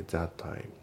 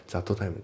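First: "that time" as "tha-time"; dropped T. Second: "that time" as "zatto taimu"; T pronounced. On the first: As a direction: say only one T in "that time". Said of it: "thatのTも抜けますね". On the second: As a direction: sound out "to" after "that" in "that time". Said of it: "じゃなくて". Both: Shown as a demonstration.

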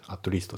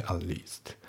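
First: At least with the t of at said out; full t in at. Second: At least with no t on at; dropped t in at. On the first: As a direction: give at least a clear t. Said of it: "じゃなくて". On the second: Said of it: "atのTが抜けますね". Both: Shown as a demonstration.

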